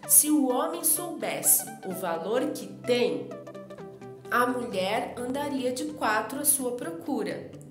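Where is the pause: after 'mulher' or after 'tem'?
after tem. There is a pause after the word 'tem'. The man does not know his own worth. "colocou a vírgula depois de tem"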